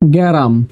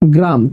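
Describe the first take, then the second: First: A vowel is inserted between the first two consonants. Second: The first two consonants are said together as a cluster. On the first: This is how many people say it in everyday speech. "উচ্চারণ হবে কি এখন গ্যারাম" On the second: This is the word's original form. "শব্দটা কি ছিল গ্রাম"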